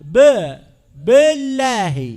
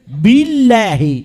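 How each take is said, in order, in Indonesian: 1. Huruf b pertama memiliki vokal yang terpotong dan patah. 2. Huruf b pertama memiliki vokal i yang penuh. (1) "ليس ب بالله" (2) "لا بد من إتمام كسرة الباء"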